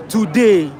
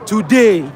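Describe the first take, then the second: No difference in how they are said.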